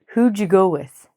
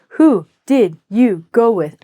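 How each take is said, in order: First: Who and did blend into one short syllable. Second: Each word is said fully and separately. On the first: The speaker calls it right. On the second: The speaker calls it wrong.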